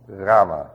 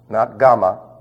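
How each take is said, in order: First: The first sound is a softer, deep guttural. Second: The first sound is a harsh, scraping guttural. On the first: The speaker calls it right. "It comes from about here" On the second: The speaker calls it wrong.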